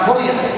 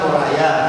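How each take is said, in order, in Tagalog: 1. Ang gitna ay parang 'ree', gaya ng Mo-ree-a. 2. Ang gitna ay parang 'rye', gaya ng Mo-rye-a. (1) "Hindi Moria kasi Batanggin po kasi ako. Pinapapatigas yung mga salita" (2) "dapat pala Moraya"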